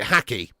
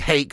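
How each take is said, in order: First: The name is said with two syllables. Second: The name is said with one syllable. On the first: "I pronounce it Hacky" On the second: "it may well be Hake, like the fish"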